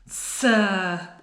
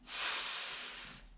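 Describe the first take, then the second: First: The s sound ends with a short added vowel. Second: The s sound is said alone, without a vowel. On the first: The speaker calls it wrong. "At the end there, that's your schwa" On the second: The speaker calls it right. "We want the pure sounds"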